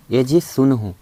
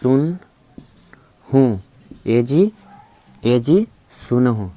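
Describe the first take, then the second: First: Said in the usual way. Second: Slow, stretched "ए जी सुन हूँ"; slow sing-song call to the husband; drawn-out wife's call. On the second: Shown as a demonstration. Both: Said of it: "तो आप सुनिए ना".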